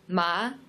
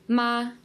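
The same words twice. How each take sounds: First: The pitch rises like a question. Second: The pitch stays high and level throughout. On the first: "the second tone it's a rising tone" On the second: "the first tone is a steady flat tone and it's a high tone"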